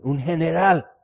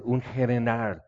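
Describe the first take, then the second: First: "Un general" thrown out higher and louder; exclaimed in awe. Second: Said in the usual way. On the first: Real, not acted. Preacher marveling to the congregation at the general, excited exclaim. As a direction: marvel at the rank. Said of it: "He estado esperando este día".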